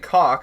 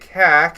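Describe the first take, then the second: First: The vowel is an open 'ah' sound. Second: The vowel is a flat 'a' as in cat. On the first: "it's actually cock" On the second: "pronounce it different, so we can say"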